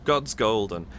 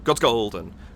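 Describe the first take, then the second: First: The vowel in "God's" is held longer. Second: The vowel in "God's" is cut short. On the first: The speaker calls it right. "It's just long enough" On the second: The speaker calls it wrong. "it's not God's golden"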